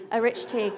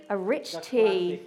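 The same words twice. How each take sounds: First: Said in the usual way. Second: Slow, drawn-out announcement of "a rich tea"; slow reveal. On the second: Acted. Dramatic reveal of Freddie's biscuit.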